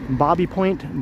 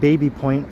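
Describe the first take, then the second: First: The first word sounds like 'bobby'. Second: The first word sounds like 'baby'. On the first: This is how the locals say it. The speaker calls it right. "apparently it's pronounced like Bobby" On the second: This follows the spelling. The speaker calls it wrong. "I just called it Baby Point for about ten years"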